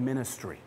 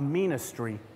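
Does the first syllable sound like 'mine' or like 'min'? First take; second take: min; mine. First: The first syllable is said as a normal 'min'. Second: The first syllable sounds like the word 'mine'. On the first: The work is service shared with others. The speaker calls it right. "it's called a ministry" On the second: The work is treated as one's own possession. The speaker calls it wrong. "it's not called a ministry"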